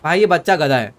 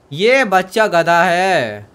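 First: Said in the usual way. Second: ये बच्चा गधा है drawn out slowly, word by word; slow emphatic repeat. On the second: Real, not acted. Gamer repeating his verdict on the kid, ये बच्चा गधा है slow and emphatic.

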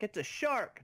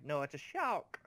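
First: High, mangled "It's a shark!"; garbled speech imitation. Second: Said in the usual way. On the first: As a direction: mimic someone who can't speak properly. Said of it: "a person that can't speak properly".

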